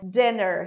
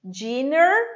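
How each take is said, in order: First: The vowel is a short, lax 'i' sound. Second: The vowel is a long, tense 'ee' sound. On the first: The speaker calls it right. "o I, que é um E com circunflexo" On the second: The speaker calls it wrong. "as many people say"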